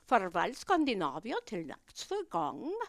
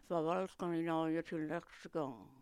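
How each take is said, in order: First: It is said with a Swedish, Italian-like sound. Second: It is murmured with a Danish sound.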